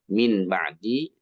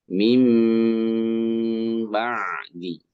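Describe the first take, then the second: First: The word ends with a plain n sound. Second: The n becomes a held, nasal m sound. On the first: "min ba'di asalnya bunyi n kan?" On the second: "n-nya jadi m, ditahan atau didengungkan juga"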